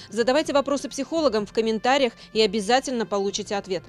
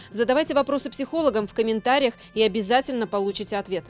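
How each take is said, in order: The two takes are said the same way.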